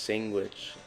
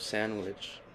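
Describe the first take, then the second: First: It is pronounced the local dialect way. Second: It is pronounced the standard English way. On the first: This is how people in the community say it. "English words pronounced sandwich instead of" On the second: This is how most other speakers say it. "instead of sandwich"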